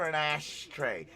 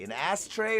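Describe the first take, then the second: First: It is said in a put-on Scottish accent. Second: It is said in a plain, ordinary accent. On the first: "like Sean Connery" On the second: "like regular English people"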